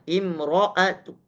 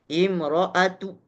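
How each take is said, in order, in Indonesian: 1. Vokal pendek yang lemah mengikuti huruf t di akhir. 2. Vokal pendek yang lemah mengikuti huruf t di akhir.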